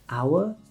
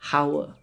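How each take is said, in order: First: The H sound is silent. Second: The H sound is pronounced. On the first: The speaker calls it right. "H can be silent at the start of a word" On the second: The speaker calls it wrong. "not our"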